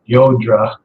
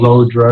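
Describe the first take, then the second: First: The name begins with a y sound. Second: The name begins with an l sound. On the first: This is the speaker's own way of saying it. "so I pronounce it Yodra, which I think is correct" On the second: Other people say it this way. "other people call it Lodra"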